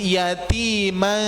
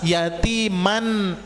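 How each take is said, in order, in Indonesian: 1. Bunyi n di akhir tersamar dan sengau. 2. Bunyi n di akhir diucapkan penuh dan jelas. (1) "mannya itu disamarkan menjadi yatima" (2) "upami jelas yatiman"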